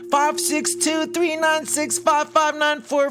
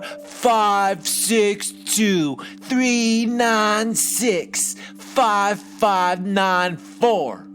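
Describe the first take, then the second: First: The number is read at a normal pace. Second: The number is read at a slower pace.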